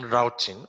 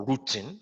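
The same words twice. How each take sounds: First: "routing" said as ROW-ting, rhymes with shouting; first pronunciation variant. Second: "routing" said as ROO-ting, like rooting; alternative pronunciation variant. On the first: Teacher offers students both names for the topic, "routing" as ROW-ting. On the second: Teacher offers students both names for the topic, "routing" as ROO-ting. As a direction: say "routing" with a long OO in the first syllable. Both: Shown as a demonstration. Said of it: "as you might want to call it".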